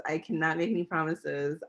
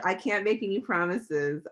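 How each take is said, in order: First: Playful firm emphasis on "cannot"; stress on cannot. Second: Said in the usual way. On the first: Shown as a demonstration. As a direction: lean hard on "cannot", then rush on.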